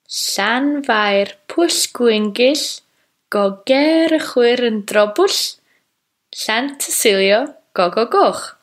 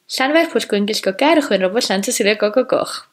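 First: It is said slowly. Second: It is said quickly.

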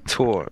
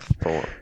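First: The name begins with a plain t sound. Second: The name begins with a th sound. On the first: The speaker calls it right. "Tor, not Thor" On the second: The speaker calls it wrong. "not Thor"

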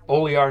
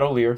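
First: The name is said with three syllables. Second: The name is said with two syllables. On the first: The speaker calls it right. "three syllables, like caviar" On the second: The speaker calls it wrong. "not Olear"

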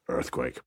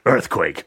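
First: The word is said quietly and flatly. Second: The word is shouted very loudly. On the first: "He would just quietly go" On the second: "shout at the top of his voice"

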